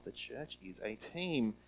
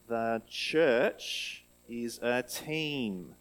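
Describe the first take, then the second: First: Said in the usual way. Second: The church is a team said slowly, each word spaced; slow group recitation. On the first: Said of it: "Good job". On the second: Shown as a demonstration. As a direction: lead the class in saying it slowly. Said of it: "let's see if we can say it together".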